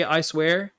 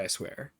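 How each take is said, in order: First: "I swear" pushed louder with a rising questioning tune; pointed question. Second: "I swear" dropped low and much softer; hushed quote. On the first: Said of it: "Where did he say". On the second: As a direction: murmur "I swear" low under the breath. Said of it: "He didn't say". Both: Retold or imitated.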